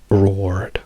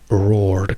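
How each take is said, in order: No difference in how they are said.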